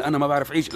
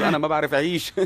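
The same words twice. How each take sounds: First: Laughing disbelief. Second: Mocking repeat. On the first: Retold or imitated. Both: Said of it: "تخيل إنه أنا ما بعرف أعيش".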